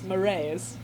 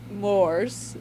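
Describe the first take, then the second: First: The word is said in two syllables, like 'moray'. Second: The word is said in one syllable. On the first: The speaker calls it right. "Like the eel" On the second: The speaker calls it wrong. "It's not mores, as I thought"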